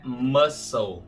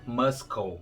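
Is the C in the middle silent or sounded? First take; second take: silent; sounded. First: The C is not pronounced at all. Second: The C is pronounced as a K sound. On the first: The speaker calls it right. "Esse C é mudo. O correto é muscle" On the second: The speaker calls it wrong. "Em inglês não é muscle"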